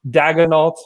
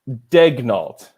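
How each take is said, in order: First: The first syllable sounds like 'dag'. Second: The first syllable sounds like 'deg'. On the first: The speaker calls it wrong. "I've heard that pronounced like that. It's just could not be more wrong" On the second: The speaker calls it right. "Degnault is the way that it's pronounced"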